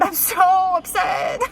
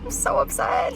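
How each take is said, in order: First: Slow, tearful, breaking voice; crying. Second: Drained whisper after crying. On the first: Stuck waiting for her car to be jumped, crying and upset. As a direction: voice cracks as the tears come. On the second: Alone in the parking garage, whispering in defeat. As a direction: let it fall to a whisper. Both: Real, not acted.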